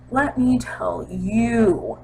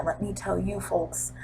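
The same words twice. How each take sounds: First: Drawn out slowly; slow knowing repeat; slow emphatic. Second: Dropped quiet aside; quiet confiding aside; soft aside. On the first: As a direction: stretch it for effect. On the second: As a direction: say it under your breath. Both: Real, not acted.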